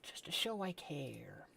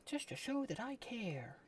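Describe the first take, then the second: First: Breathy secret whisper, all air. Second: Higher put-on voice, sing-song and sweet; mock sweet voice. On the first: Pretend. Sending cryptic messages to friends, whispered. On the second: Sending cryptic messages to friends, in a higher put-on voice. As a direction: sweeten it up like a fake greeting card. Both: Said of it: "my cryptic messages".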